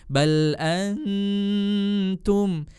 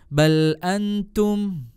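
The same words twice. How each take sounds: First: The n is held with a clear nasal hum. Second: The n slips into the t without nasal hum. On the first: The speaker calls it right. "Harusnya disertai dengan dengung sehingga sempurna seperti ini" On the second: The speaker calls it wrong. "Contoh yang salah seperti ini"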